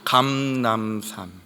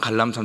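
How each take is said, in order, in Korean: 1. 첫 음절은 m 소리로 끝납니다. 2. 첫 음절은 l 소리로 끝납니다.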